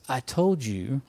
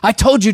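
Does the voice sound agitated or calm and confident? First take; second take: calm; agitated. First: It sounds calm and confident. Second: It sounds agitated and worked up. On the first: Resting assured in a victory already won. The speaker calls it right. "We're confidently focused on the positive" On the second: Fighting with the enemy out of frustration. The speaker calls it wrong. "You don't get all bent out of shape. You don't say"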